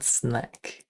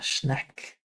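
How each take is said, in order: First: The word begins with a plain 's' sound. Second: The word begins with an 'sh' sound. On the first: The speaker calls it wrong. "So much better than snack" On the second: The speaker calls it right. "making an S H sound when there's an S"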